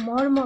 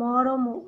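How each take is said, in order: First: The r and the m run together. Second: A vowel separates the r and the m. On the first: The speaker calls it right. "আমরা মর্ম বলি" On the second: The speaker calls it wrong. "মরমও বলি না"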